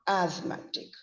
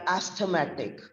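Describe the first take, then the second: First: The TH sound is left out entirely. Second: The TH sound is pronounced in the middle. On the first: The speaker calls it right. "the letters T H are silent" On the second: The speaker calls it wrong. "We don't say they are asthmatic"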